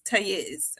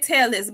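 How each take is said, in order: First: The name is said with a Spanish pronunciation. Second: The name is said with an English pronunciation. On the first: This is how the name's own community says it. "they they pronounce it Tayez" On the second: This is how English speakers say it. "we say Tellis"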